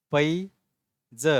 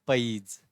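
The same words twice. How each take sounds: First: पैज split as "pai... za", with a long pause; letter by letter. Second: पैज joined as "paiz", no final vowel; read as one word. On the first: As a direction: spell out पैज sound by sound, very slowly. (पैज अक्षर-अक्षर अलग करके) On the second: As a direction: blend पैज into a single syllable. (पैज एक साथ जोड़कर) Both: Shown as a demonstration. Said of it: "पढ़ोगे कैसे?".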